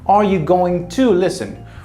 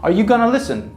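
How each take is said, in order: First: Going to is said in full, with the T. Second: Going to is reduced to gonna, without the T. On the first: The neutral, formal way of saying it. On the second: An informal, casual way of saying it.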